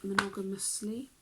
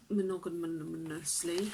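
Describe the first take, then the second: First: "Monogamously" said cleanly, syllable by syllable; careful correction. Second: "monogamously" tripped over with extra stumbling syllables; tongue-tied. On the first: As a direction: fix the word "Monogamously" carefully. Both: Real, not acted.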